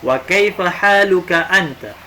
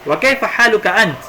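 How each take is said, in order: First: The last word ends with a full vowel. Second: The last word ends cut off without a vowel. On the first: This is the full, formal reading. "kalau bacaan sempurna" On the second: This is how it is said in everyday conversation.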